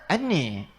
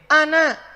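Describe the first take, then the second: First: The word ends with an 'e' vowel. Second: The word ends with an open 'a' vowel.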